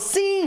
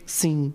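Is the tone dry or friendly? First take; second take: friendly; dry. First: It is said in a warm, friendly tone. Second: It is said in a flat, dry tone.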